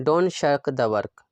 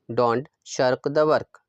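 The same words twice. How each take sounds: First: Said in the usual way. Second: Slow, word by word for the learner; slow repeat. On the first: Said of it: "teacher says sentence twice". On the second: Shown as a demonstration. Teacher repeating for the class, slowly. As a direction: spell it out slowly so students can copy. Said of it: "teacher repeats sentence slowly".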